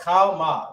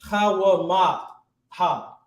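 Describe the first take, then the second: First: It ends on 'ma' with no 'ha'. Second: A full 'ha' syllable follows 'ma'. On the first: The speaker calls it right. "you know it's connected" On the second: The speaker calls it wrong. "if it wasn't connected, it'd be like"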